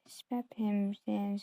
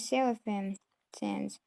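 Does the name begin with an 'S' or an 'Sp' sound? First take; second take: Sp; S. First: The name begins with an 'sp' sound. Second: The name begins with a plain 's' sound. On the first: The speaker calls it wrong. "I thought Sephim Sands was actually pronounced Spep Spephim Sands" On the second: The speaker calls it right. "it's actually pronounced"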